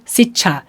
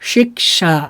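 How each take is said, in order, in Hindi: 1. बीच की ध्वनि अस्पिरेटेड 'chh' है। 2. बीच की ध्वनि 'k' और फिर 'sh' है। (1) "बहुत सारे लोग ऐसे गलती करते हैं, क्या बोलते हैं" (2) "होता क्या है"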